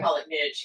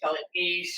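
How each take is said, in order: First: Niche is said the Southern way. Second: Niche is said the non-Southern way.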